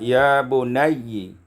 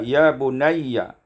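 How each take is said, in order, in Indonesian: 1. Kata itu berakhir dengan vokal i. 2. Kata itu berakhir tanpa vokal i.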